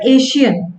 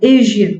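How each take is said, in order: First: The middle consonant is a plain 'sh' sound. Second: The middle consonant is a voiced 'zh' sound. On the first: The speaker calls it wrong. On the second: The speaker calls it right. "Z, right? आप if ऐसे बोलोगे it will sound better"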